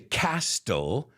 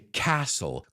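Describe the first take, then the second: First: A T sound is heard in the middle. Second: No T sound is heard in the middle. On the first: The speaker calls it wrong. "I don't say castle" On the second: The speaker calls it right. "I say castle. Como la T no lo decimos"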